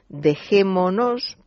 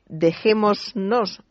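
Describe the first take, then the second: First: No s sound comes before the final -nos. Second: An s sound comes before the final -nos. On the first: The speaker calls it right. "sino dejémonos" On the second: The speaker calls it wrong. "no se dice dejémonos"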